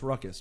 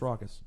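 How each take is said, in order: First: The first syllable sounds like 'ruck'. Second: The first syllable sounds like 'raw'. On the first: The speaker calls it wrong. "is not pronounced Ruckus" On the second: The speaker calls it right. "but is actually pronounced Raucous"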